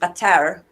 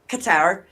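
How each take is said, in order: First: The name is said with careful precise pronunciation. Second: The name is said in a casual everyday way.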